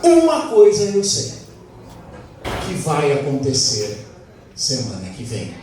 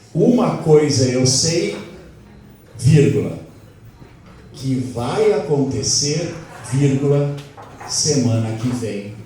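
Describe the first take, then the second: First: The sentence is spoken at a normal pace. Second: The sentence is spoken slowly with clear pauses.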